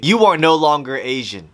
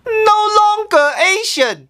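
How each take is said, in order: First: Said in the usual way. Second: High, shocked disbelief; shocked outcry. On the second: Acted. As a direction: cry it out in disbelief. Shocked echo of the statement.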